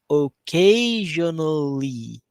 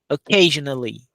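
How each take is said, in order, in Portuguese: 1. A palavra é dita devagar e arrastada. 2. A palavra é dita rápido e compacta. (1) "Mais devagar" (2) "e depois rápido"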